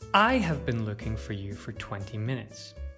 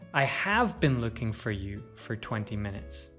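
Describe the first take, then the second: First: The word I carries the main stress. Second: The word have carries the main stress. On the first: It was this person looking, not someone else. "If we stress I, it emphasizes who is looking" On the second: It answers someone who doubts the looking happened. "If we stress have, it suggests that the other person doubts us"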